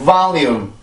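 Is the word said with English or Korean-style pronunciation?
English. It is said with English sounds and rhythm. The speaker calls it right. "이렇게 해서 이 단어는 발음을 해주세요"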